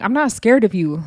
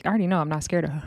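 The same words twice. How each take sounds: First: Mild put-on tough declaration; mock defiance. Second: Said in the usual way. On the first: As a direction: act out needlessly announcing you're unafraid. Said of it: "look to her and be like".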